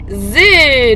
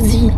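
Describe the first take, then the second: First: The vowel sounds like French é. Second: The vowel sounds like English ee. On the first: The speaker calls it right. "ça se dit Zé" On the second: The speaker calls it wrong. "Et pas Zi. C'est pas de l'anglais"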